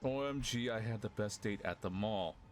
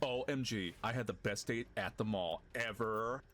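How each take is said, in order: First: It is read in the speaker's plain voice. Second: It is read in a put-on character voice.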